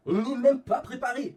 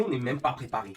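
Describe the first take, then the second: First: "même" stretched, higher and louder; exasperated repeat. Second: Said in the usual way. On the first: Real, not acted. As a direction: drag out "même" in disbelief.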